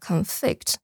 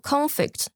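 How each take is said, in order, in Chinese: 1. 重音在第二个音节。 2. 重音在第一个音节。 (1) "要注意一下这个字重音在后面" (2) "重音在前面"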